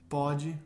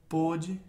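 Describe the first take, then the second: First: The first o vowel is open. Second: The first o vowel is closed.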